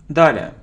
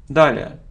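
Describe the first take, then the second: No difference in how they are said.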